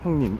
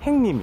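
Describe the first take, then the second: First: It is said with the standard 'hyeong' vowel. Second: It is said with the Gyeongsang 'haeng' vowel. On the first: "형님 이렇게 하는 경우" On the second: "부산이나 경상도 쪽에서는 ... 형을 행이라고 발음 또 많이 하거든요"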